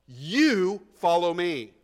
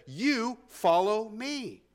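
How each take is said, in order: First: Slow, loud "You" leading "follow me"; stress on you. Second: "You" hit hard, then slowly "follow me"; stress on you. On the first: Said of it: "He was emphasizing it". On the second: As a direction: lean on "You", slow and firm. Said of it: "the "you" there is in the emphatic position". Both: Shown as a demonstration.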